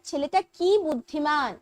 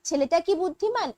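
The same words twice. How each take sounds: First: It is said with an exclaiming tune. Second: It is said with a questioning tune. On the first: The boy is very intelligent. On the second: The speaker asks whether the boy is intelligent.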